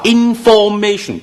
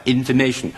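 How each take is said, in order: First: Information中間讀成響亮嘅form音; 高音慢讀information，for音讀到實; 錯誤示範，for讀實. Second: Information中間for讀成好弱嘅fə音; 輕巧咁讀information，中間一帶而過; 正確示範，弱音. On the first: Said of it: "你話information都錯". (錯讀information，中間唔弱化) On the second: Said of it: "用咗個好弱嘅音". (正讀information，for弱化) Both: Shown as a demonstration.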